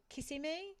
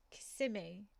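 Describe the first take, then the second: First: "Kissimmee" as KISS-i-mee, stress on the first syllable; UK mispronunciation. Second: "Kissimmee" as kuh-SIM-ee, stress on the second syllable; weak first syllable, punch SIM in "Kissimmee"; corrected pronunciation. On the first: Quoting how UK people say it, "Kissimmee" stressed KISS-i-mee. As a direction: hit KISS at the start of "Kissimmee". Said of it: "which is wrong". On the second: Streamer checking with Aubrey, "Kissimmee" stressed kuh-SIM-ee. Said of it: "It's like, it's Kissimmee". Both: Shown as a demonstration.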